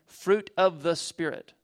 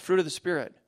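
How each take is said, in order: First: "Fruit of the Spirit" drawn out slowly, word by word; slow emphatic repeat. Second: Said in the usual way. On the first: Shown as a demonstration. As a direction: let it sink in, slowly.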